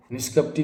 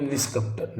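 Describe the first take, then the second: First: निष्कपटी said with a final long "ee"; wrong form. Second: निष्कपट said ending on "t" with no ee; correct form. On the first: Teacher shows the misspelling, निष्कपटी ending in a long ee. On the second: Teacher gives the correct form, निष्कपट with no ee ending. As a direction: end निष्कपट cleanly on the t. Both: Shown as a demonstration. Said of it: "निष्कपटी नहीं".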